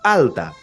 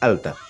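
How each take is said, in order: First: The catch in the word is strong and exaggerated. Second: The catch in the word is light and brief. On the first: It is overdone so the sound can be learned. "exagerándolo sería alta" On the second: This is how it sounds in everyday speech. "Se dice alta, es ligero, es alta"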